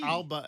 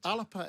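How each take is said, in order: First: It has an English pronunciation with two syllables. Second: It has a Gaelic pronunciation with an extra middle vowel. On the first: "Alba in English" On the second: "Alapa in the Gaelic"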